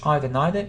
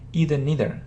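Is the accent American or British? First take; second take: British; American. First: The words are said with a British accent. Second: The words are said with an American accent.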